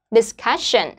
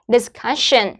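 Both takes have the same delivery.

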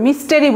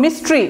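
First: মিস্টেরি with an extra "te" syllable; mispronunciation. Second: মিস্ট্রি squeezed into two syllables, "mis-tri"; quick pronunciation. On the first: Teacher shows learners' mistake, মিস্টেরি in three syllables. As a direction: say মিস্টেরি as "mis-te-ri". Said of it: "তারা কিন্তু এই ভুলটা করবে". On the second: Teacher models the correct noun, মিস্ট্রি said as quick "mis-tri". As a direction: drop the middle vowel in মিস্ট্রি. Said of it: "খুব দ্রুত, মিস্ট্রি". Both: Shown as a demonstration.

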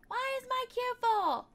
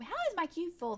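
First: Higher, louder indignant question; exasperated disbelief. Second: Said in the usual way. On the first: Real, not acted. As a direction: complain at the game.

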